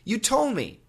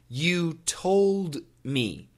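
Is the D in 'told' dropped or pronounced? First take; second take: dropped; pronounced. First: The D in 'told' is dropped after the L. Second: The D in 'told' is clearly pronounced. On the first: "many Americans do say" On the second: "Perfect pronunciation"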